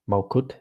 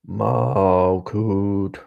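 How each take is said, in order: First: The word is spoken plainly, like ordinary speech. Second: The word is drawn out and resonantly vibrated. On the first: The speaker calls it wrong. "you are not gonna say Malkut" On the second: The speaker calls it right. "like you're gonna properly vibrate the things"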